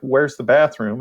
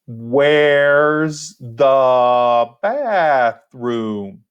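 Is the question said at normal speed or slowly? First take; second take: normal; slowly. First: It is said at an ordinary conversational speed. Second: It is said slowly with every word over-enunciated.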